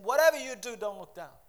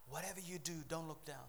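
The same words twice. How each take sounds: First: Loud, high commanding cry from above; booming start, falling away at the end; God's voice. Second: Soft, restrained warning; hushed closing refrain; quiet reminder. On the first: Acted. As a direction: call it out as God's urgent warning. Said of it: "God's voice saying". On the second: Real, not acted. Quiet reminder before God's voice.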